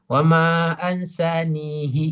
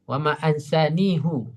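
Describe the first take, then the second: First: The final pronoun ends with an 'i' vowel. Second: The final pronoun ends with an 'u' vowel. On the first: This is another reciter's reading that follows the basic rule. "mengembalikan ke asal kaidah" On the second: This is one reciter's reading that departs from the basic rule. "Hu pada riwayat Hafiz"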